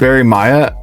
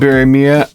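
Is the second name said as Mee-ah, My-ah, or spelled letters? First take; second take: My-ah; Mee-ah. First: The second name sounds like my-ah. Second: The second name sounds like mee-ah. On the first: "or is it Barry Maya" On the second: "I'm pretty sure it's Barry Mia"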